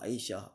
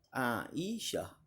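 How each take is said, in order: First: The name is said with Malay pronunciation. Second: The name is said with Arabic pronunciation. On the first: "selalu orang Melayu sebut"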